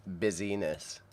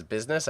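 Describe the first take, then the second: First: "busyness" in three syllables, bizz-ee-ness; spelling mnemonic pronunciation. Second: Said in the usual way. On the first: Shown as a demonstration. Streamer showing a spelling memory trick, "busyness" as bizz-ee-ness. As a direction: sound out "busyness" with a clear ee in the middle. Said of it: "I think of it as".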